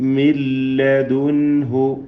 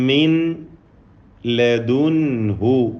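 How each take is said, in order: First: The n merges fully into a doubled l. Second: The n is sounded separately before the l.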